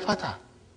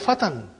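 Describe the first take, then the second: First: The word ends on a vowel, without n. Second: The word ends with an n sound. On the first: This is how it is said in practice. "We say fatah" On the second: This is the full indefinite form. "It is actually fatan"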